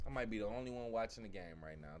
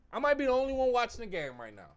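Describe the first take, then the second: First: Muttered. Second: Exasperated. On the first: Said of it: "repeated quieter". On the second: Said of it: "repeated lower". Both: Real, not acted.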